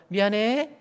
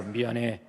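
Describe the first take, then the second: First: 미안해. pitched up high; wrong pitch. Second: 미안해. laid low and soft. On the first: Pastor demonstrating the wrong tone of apology. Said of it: "이거 또 틀리잖아". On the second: Pastor showing the right low tone for sorry. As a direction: keep 미안해. pitched down. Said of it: "그 앞에 깔고". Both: Shown as a demonstration.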